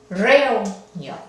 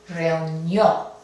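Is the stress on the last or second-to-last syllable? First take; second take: second-to-last; last. First: The stress is on the second-to-last syllable. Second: The stress is on the last syllable. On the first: The speaker calls it wrong. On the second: The speaker calls it right.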